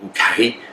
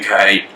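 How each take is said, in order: First: It is said with a French accent. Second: It is said with a plain English accent.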